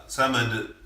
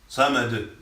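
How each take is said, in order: No difference in how they are said.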